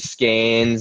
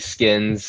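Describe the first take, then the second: First: The vowel sounds like the one in 'cane'. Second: The vowel sounds like the one in 'kin'. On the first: The bearer is from Connecticut. "if he was from from Connecticut, it's probably Skanes" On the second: The bearer is from the West Coast or Deep South. "West Coast or Deep South, definitely Skins is is on brand"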